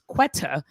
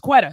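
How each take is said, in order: First: The middle consonant is a clear T sound. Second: The middle consonant sounds like a D. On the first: This is how people outside Baltimore say it. "we wouldn't say that her name is Quetta" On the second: This is how Baltimore people say it. "our T's are our D's"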